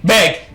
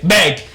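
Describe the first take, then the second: Both takes have the same delivery.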